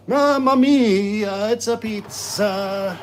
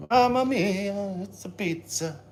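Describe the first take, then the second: First: Slow, high, booming Italian chef cry; jolly italian pizza chef. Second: A lighter, slower Italian chef cry; jolly italian pizza chef. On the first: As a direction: belt it like a proud pizzaiolo. Pizza check, Italian chef exclamation. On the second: Repeat of the chef exclamation. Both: Pretend.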